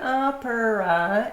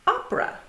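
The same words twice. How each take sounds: First: The word is said with three syllables. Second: The word is said with two syllables. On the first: The speaker calls it wrong. "It's not opera" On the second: The speaker calls it right. "two syllables. It's not opera, it's opera"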